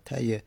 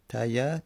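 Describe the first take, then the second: First: تایه said taye, ending in e, falling; ya with kasra. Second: تایه said taya, open a, rising; ya with fatha. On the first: Teacher showing the ya with kasra on تایه. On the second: Teacher showing the ya with fatha on تایه. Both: Shown as a demonstration. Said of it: "چی فتحه داشته باشه چی کسره".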